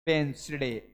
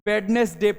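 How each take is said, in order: First: The d sound is dropped from the middle. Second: The d sound is pronounced in the middle. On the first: The speaker calls it right. "D silent मारेंगे हम" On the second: The speaker calls it wrong. "वेडनेसडे पढ़ते हैं, गलत है बिल्कुल"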